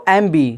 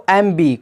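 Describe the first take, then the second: No difference in how they are said.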